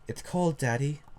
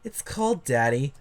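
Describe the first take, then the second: First: It is read in a plain normal voice. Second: It is read in an exaggerated put-on voice.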